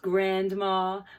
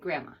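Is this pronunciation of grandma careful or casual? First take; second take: careful; casual. First: It is pronounced fully and carefully. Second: It is pronounced in a relaxed, reduced way. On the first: It sounds formal and proper. "that always sounds so, so proper" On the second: It is the everyday family word. "So I always say grandma"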